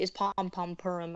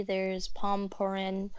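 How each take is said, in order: First: "Pom Pom Purim" with the doubled "Pom Pom"; both "Pom Pom" said before "Purim"; corrected name. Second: "Pom Purin" said with a single "Pom", slowly; one "Pom" before "Purin", the mistaken name; wrong name. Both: Real, not acted. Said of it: "oh, excuse me, it's Pom Pom Purim".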